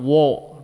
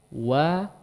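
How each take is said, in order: First: The vowel is rounded with lips pushed forward. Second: The vowel is open with neutral, unrounded lips. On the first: The speaker calls it wrong. "Jadi tidak wo dibiarkan di depan" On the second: The speaker calls it right. "dia harusnya kembali di posisi netral"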